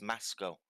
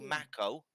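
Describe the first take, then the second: First: The middle consonant is an S sound. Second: The middle consonant is a K sound. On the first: This is how it is said in its own language. The speaker calls it right. "in his language it's pronounced Masco. So the C is an S" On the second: This is the usual way people say it. The speaker calls it wrong. "We say we say Mako because there's a C"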